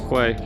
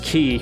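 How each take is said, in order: First: The word is said as 'kway'. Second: The word is said as 'key'. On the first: The speaker calls it wrong. "In the old video, I think I pronounced it as Quay" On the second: The speaker calls it right. "pronounced Key"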